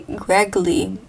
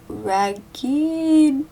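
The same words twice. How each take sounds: First: Said in the usual way. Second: "raggedly" stretched slowly and pitched high; drawn-out word. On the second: Real, not acted. Reader puzzling over an odd word, "raggedly" long and high. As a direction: draw out "raggedly" high and loud.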